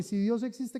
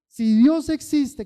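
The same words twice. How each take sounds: First: Said in the usual way. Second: Louder, slow, higher desperate plea; a desperate man testing God; pleading cry. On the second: Retold or imitated. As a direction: beg it out, slowing down. Man's retold plea, repeated louder.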